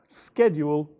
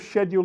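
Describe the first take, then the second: First: It is said the American way. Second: It is said the British way.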